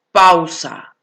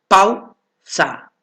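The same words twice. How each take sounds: First: Said in the usual way. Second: "Pausa" split as pau, pause, sa; syllable by syllable. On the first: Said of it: "del silabeo". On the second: Shown as a demonstration. Teacher showing a diphthong to students, syllable by syllable. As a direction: keep pau together in "Pausa", then a separate sa. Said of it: "Aquí está formada por una abierta y una cerrada".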